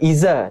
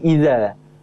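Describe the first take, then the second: First: The middle consonant is a buzzing z sound. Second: The middle consonant is a soft th sound. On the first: The speaker calls it wrong. "Di situ bukan zai" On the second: The speaker calls it right. "tapi dal"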